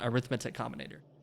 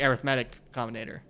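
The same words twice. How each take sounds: First: Arithmetic is pronounced as the noun. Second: Arithmetic is pronounced as the adjective. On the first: The word names the field of arithmetic. The speaker calls it wrong. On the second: The word describes the kind of combinator. The speaker calls it right. "you say it as the adjective"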